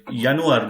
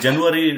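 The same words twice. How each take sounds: First: Januar with an initial Y sound; German pronunciation. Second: Said in the usual way. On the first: Shown as a demonstration. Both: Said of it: "that is January right now".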